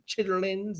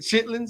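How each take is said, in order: First: The word is said with all three syllables. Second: The word is said shortened to two syllables.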